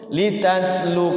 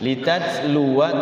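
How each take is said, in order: First: The word ends without the final 'wa' syllable. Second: The word ends with a short 'wa' syllable. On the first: The reading stops on this word. "Kalau di waqaf kita, maka ini wawunya ini jadi sukun" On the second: The reading continues into the next words. "tapi kalau wasol"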